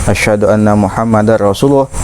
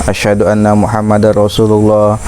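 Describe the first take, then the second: No difference in how they are said.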